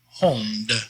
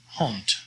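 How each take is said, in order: First: The final consonant is a voiced D sound. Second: The final consonant is a voiceless T sound. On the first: The speaker calls it wrong. "So not hond" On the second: The speaker calls it right. "always pronounced as a T sound"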